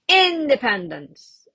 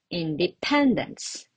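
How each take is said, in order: First: The stress is on the first syllable. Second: The stress is on the third syllable. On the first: The speaker calls it wrong. "See, it sounds really weird" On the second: The speaker calls it right. "And the correct one"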